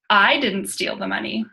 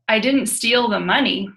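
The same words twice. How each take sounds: First: The stress is on the word I. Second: The stress is on the word money.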